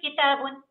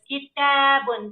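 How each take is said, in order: First: The vowel after t is cut short. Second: The vowel after t is held long. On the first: The speaker calls it wrong. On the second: The speaker calls it right.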